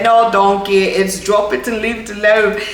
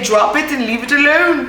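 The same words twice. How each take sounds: First: Playful mock British accent for Shrek's line. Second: High, put-on British-ish accent; quoting Shrek, slipping into British; Shrek quote in accidental accent. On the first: Vlogger repeating Shrek's line in a mock British accent. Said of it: "why it keeps turning to a British accent". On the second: Vlogger quoting Shrek in an accidental British accent. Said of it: "I don't know where the accent came from".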